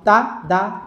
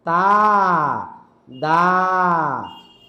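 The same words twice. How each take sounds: First: The syllables are said quickly together. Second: Each syllable is drawn out slowly. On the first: The speaker calls it right. "তিনটা একসাথে উচ্চারণ হবে" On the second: The speaker calls it wrong. "টেনে টেনে বললেন, এক একটা এক দুই সেকেন্ড করে বললেন"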